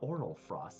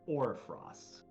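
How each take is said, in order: First: The name starts with 'oral', three syllables. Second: The name starts with 'or', two syllables. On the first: The speaker calls it wrong. "it's not oral frost" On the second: The speaker calls it right. "it's orfrost"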